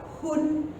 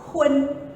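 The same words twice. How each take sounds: First: The vowel is a plain u sound. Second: The vowel glides through a uen sound. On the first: The speaker calls it wrong. "tidak boleh dibaca hun" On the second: The speaker calls it right. "Kita harus membaca hun, U N dibaca un"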